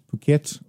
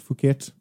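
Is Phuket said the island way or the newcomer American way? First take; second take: island way; American way. First: It is said the way islanders say it. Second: It is said the way newcomer Americans say it. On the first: "there's an island called Phuket" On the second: "a lot of Americans will say Phuket"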